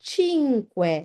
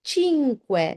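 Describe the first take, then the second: Both takes have the same delivery.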